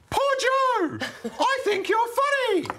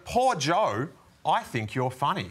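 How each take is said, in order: First: It is read in a put-on character voice. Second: It is read in a plain, natural voice.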